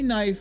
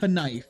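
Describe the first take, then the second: First: The word starts with an N sound. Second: The word starts with a spoken K sound. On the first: The speaker calls it right. "With a silent K" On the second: The speaker calls it wrong. "I know damn well you're not walking around saying knife"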